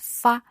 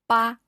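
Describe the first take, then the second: First: It is said the Cantonese way, as fa. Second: It is said the Mandarin way, as ba. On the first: "in Cantonese is fa" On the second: "Ba in Mandarin we pronounce as ba"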